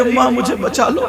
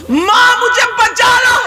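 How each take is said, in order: First: Said in the usual way. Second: High, shouted cry for help; screaming for help. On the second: Acted. Girl screaming to her mother to save her, high shouted cry. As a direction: wail to be saved. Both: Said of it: "کہہ رہی ہے".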